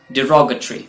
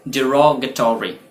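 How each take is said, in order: First: "डिरोगेटरी" as "di-ROG-uh-tree"; short "-tree" ending on "डिरोगेटरी"; correct pronunciation. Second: "डिरोगेटरी" as "di-ROG-uh-tor-ee"; slower "डिरोगेटरी" with a full "-tory" ending; alternative pronunciation. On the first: Teacher giving the proper pronunciation, shortened ending. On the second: Teacher giving learners the alternative, full ending. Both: Shown as a demonstration. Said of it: "इसका pronunciation होता है".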